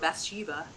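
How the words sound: The name is said the American way.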